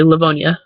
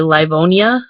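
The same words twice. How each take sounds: First: The word is said quickly and compressed. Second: The word is said slowly with all syllables. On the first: "like it's faster" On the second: "most people would probably say Livonia"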